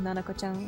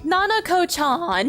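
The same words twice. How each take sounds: First: It is said quickly, soft and light. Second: It is said American-style, with heavy breath.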